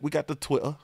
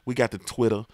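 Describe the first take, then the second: First: It is said in a British accent. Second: It is said in his usual accent.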